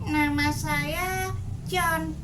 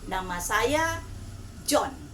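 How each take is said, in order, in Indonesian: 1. Ini diucapkan dengan suara seperti anak-anak atau suara yang lebih berat. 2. Ini diucapkan dengan suara biasa penuturnya.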